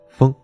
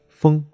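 First: The level tone is pitched too low. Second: The level tone is pitched high. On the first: The speaker calls it wrong. "最常见的问题就是发的不够高，可能会发成风" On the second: The speaker calls it right. "它的调值是55 调值"

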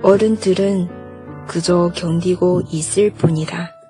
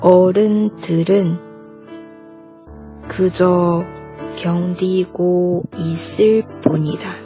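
First: It is said at normal speed. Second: It is said slowly.

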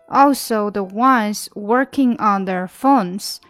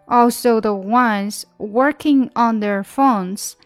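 Both takes have the same delivery.

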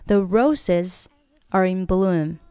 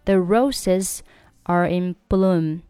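First: Roses, are and in are said separately. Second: Roses, are and in are said separately.

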